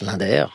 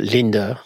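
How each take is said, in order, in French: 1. Le nom est prononcé avec une prononciation française. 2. Le nom est prononcé avec une prononciation étrangère. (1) "à la française, on le prononce Linder" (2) "Il y a des gens qui prononcent d'ailleurs Linder"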